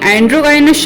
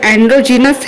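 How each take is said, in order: First: The middle sounds like a hard 'guy'. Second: The middle sounds like a soft 'jee'. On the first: The speaker calls it wrong. "मैंने एंड्रोगाइनस शब्द का उच्चारण गलत किया था" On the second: The speaker calls it right. "इसका सही उच्चारण एंड्रोजीनस है"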